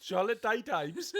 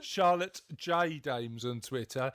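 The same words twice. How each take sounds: First: "Charlotte Day Dames?" with "Day" said as the word day, high and questioning; misread handle. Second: "Charlotte J Dames" with "J" as the letter, slow and deliberate; corrected handle. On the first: Host stumbles over her co-host's Twitter handle, puzzled. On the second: Host corrects the handle for listeners, slow and careful. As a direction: spell out the "J" clearly and slowly. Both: Real, not acted.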